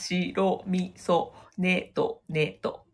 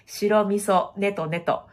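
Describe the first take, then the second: First: It is broken into separate, strongly articulated chunks. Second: It runs smoothly with little mouth movement. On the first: The speaker calls it right. "めっちゃこうやって動くやつ" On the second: The speaker calls it wrong. "このって口の形がね、あんまり変わらない状態で"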